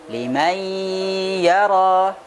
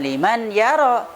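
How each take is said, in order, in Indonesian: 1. Bunyi n menyatu ke dalam y dengan nasalisasi. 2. Bunyi n diucapkan dengan jelas sebelum y. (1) "tetapi apa? Liman yara" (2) "bukan liman yara"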